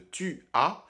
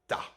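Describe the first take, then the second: First: The pronoun is said in full as a syllable. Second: The pronoun is shortened to a single consonant. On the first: "à la place de tu as" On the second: "j'utiliserais plutôt t'as"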